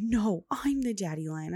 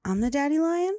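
First: Mildly whiny imitation of a toddler's protest; welling-up child. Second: Put-on high, loud toddler question, rising at the end; small child asking. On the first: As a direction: imitate a child insisting, close to tears. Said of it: "well up, right? She's like". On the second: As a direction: imitate a child checking hopefully. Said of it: "a minute later, she's like".

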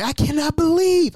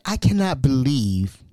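First: High-pitched outraged cry; yelling. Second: Slow, emphatic reproach at talking volume; retold yelling. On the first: Retold or imitated. Nephew going off at his aunt on the phone, high retold yell. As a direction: let it leap up high in disbelief. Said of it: "and I'm yelling". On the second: Nephew confronts his aunt on the phone, slow restrained anger. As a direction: weigh each word in mild outrage. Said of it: "I am yelling through the phone".

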